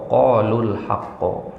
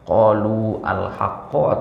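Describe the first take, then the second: First: The u is shortened and linked into the l. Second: The long u and the al are said apart.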